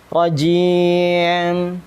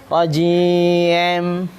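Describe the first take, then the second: No difference in how they are said.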